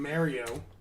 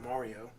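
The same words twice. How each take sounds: First: Mario is said with a New Jersey pronunciation. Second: Mario is said without the New Jersey pronunciation. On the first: "it's Jersey in me" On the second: "as you some people want me to pronounce it"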